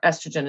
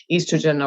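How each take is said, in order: First: "estrogen" with a short E at the start; Canadian pronunciation. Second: "estrogen" with a long EE at the start; British-style "estrogen", first vowel as in "east"; Irish pronunciation. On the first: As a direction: say "estrogen" as ESS-truh-jen. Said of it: "as you would call it in Canada". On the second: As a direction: say "estrogen" as EE-struh-jen. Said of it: "an O at the beginning and we call it estrogen". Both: Shown as a demonstration.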